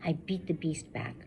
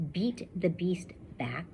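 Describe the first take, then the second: First: Said in the usual way. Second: Slow whisper leaning on each B; whispered alliteration. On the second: Shown as a demonstration. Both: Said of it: "all starts with B's".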